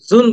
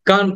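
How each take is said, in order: First: The word begins with a j sound. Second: The word begins with a hard g sound. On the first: The speaker calls it wrong. "আমরা কিন্তু জুন বলছি না" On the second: The speaker calls it right. "গান বলছি"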